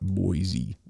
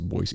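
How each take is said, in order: First: The middle consonant is a z sound. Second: The middle consonant is an s sound. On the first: The speaker calls it wrong. "It's not Boise. There's no Z" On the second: The speaker calls it right. "Boise is Boise"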